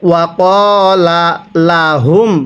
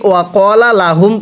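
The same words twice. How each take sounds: First: Two separate l sounds are pronounced there. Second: Only a single l sound is pronounced there. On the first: The speaker calls it right. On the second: The speaker calls it wrong.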